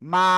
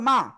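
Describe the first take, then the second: First: The vowel is drawn out and held longer. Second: The vowel is short and said quickly. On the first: "এখানে আবার কি আমরা টেনে পড়তেছি" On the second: "হরকতের উচ্চারণ তাড়াতাড়ি পড়তে হয়"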